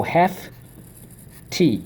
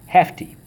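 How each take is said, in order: First: HEFTY pulled apart into two raised beats; syllable by syllable. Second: Said in the usual way. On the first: Shown as a demonstration. Teacher drilling the class once more, syllable by syllable. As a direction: split HEFTY after hef, with a clear pause. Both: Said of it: "Okay, so let's go".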